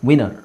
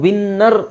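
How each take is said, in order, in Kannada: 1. n ಒಂದೇ ಇರುತ್ತೆ, ಚಿಕ್ಕದಾಗಿ ಹೇಳ್ತೀವಿ. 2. n ಡಬಲ್ ಇರುತ್ತೆ, ಉದ್ದವಾಗಿ ಹಿಡೀತೀವಿ.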